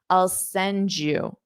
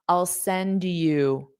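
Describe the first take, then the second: First: The D and Y merge into a J sound. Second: A small pause separates the D from you. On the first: "when you say a D and Y close together, it will automatically create J" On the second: "you have to really take a little bit of a pause there"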